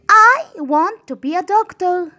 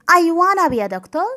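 First: 'Want to' is said as two full words. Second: 'Want to' is reduced to 'wanna'.

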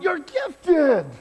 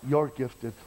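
First: It is said with lively emotion. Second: It is said flatly, without emotion. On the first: The speaker calls it right. "Say it with some emotion" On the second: The speaker calls it wrong. "Nobody wants you're gifted"

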